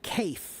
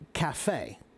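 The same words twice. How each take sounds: First: The word is said as English spelling suggests. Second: The word is said the French way. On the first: The word is treated as a native word. "If it were an English word, the pronunciation would be cafe" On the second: The word keeps its original foreign pronunciation. "we pronounce it cafe. Why? Because it's French"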